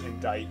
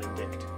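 First: The c is silent, said like 'indite'. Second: A k sound is said before the t. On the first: The speaker calls it right. "I-N-D-I-C-T is indict" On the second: The speaker calls it wrong. "not indict"

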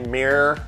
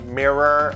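First: It is said in a Midwestern accent. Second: It is said in a non-Midwestern accent. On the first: "I have this like Midwestern or whatever accent" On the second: "instead of like mirror"

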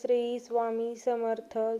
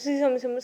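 First: The phrase is said slowly. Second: The phrase is said very fast. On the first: The chanting is heartfelt and devoted. The speaker calls it right. "Slow म्हणायचं असतं" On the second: The chanting is hurried just to finish the count. The speaker calls it wrong. "इतकं fast बोलतात"

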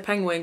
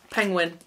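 First: The ending sounds like the word wing. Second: The ending sounds like the word win. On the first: The speaker calls it wrong. "I say penguin" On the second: The speaker calls it right. "it's penguin"

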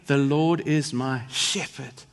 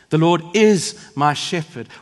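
First: The word shepherd is stressed. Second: The word is is stressed.

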